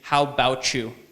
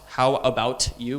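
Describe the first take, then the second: First: The first vowel of 'about' is dropped. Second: Every syllable of 'about' is clearly pronounced. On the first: The speaker calls it right. "We say how about you. There's no a" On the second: The speaker calls it wrong. "We don't say"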